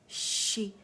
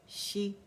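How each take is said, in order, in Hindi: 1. 'sh' ध्वनि ज़ोर लगाकर और तनी हुई है। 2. 'sh' ध्वनि नरम और ढीली है।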